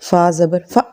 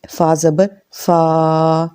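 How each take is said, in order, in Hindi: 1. अंतिम स्वर अचानक काट दिया जाता है। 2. अंतिम स्वर लंबा खींचा जाता है। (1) "छोटा करते करते झटका लग जाता है ... ऐसे भी नहीं पढ़ना" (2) "उसको लंबा नहीं करना ... ऐसे नहीं पढ़ना"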